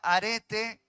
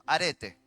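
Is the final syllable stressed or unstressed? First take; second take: stressed; unstressed. First: The stress falls on the final syllable. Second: The final syllable is not stressed. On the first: Courage, the kind willing to die for a cause. "con acento en la última E" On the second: Excellence in how one conducts one's life. "sin acento"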